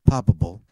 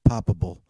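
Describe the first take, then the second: No difference in how they are said.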